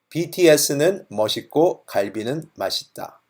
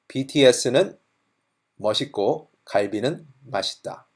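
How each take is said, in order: First: The sentence is said at a faster pace. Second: The sentence is said at a slower pace.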